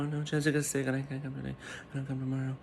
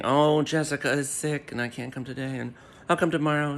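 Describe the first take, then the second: First: Fast, much softer mock repeat of her excuse; quick, quiet mock parroting; mocking Kate again. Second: Lightly put-on voice mocking her excuses; mock whiny excuse voice; mocking Kate. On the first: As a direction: rattle the excuse off under your breath. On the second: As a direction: parrot her flimsy excuse, a touch sing-song. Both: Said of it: "then kept saying".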